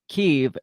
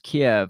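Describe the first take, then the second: First: The name is said in its Ukrainian form. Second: The name is said in its Russian form. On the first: This is the form Ukrainians use. "the Ukrainians use Ki- Kyiv" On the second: This is the form Russians use. "the Russians use Kiev"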